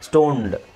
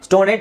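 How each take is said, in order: First: The ending joins the word without a syllable. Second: The ending is said as an extra syllable. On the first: The speaker calls it right. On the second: The speaker calls it wrong.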